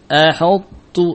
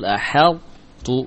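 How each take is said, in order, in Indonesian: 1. Bunyi h dibuat tebal dan berat. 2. Bunyi h dibuat tipis dan ringan. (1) "yang salah adalah menebalkan ha" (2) "yang betul"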